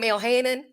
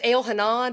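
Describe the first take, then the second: First: The name is said with American-style pronunciation. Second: The name is said with Hebrew-style pronunciation. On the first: This is how the speaker habitually says it. "but I call him El Hanan" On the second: This is how the name is really said. "I found out it's El Hanan"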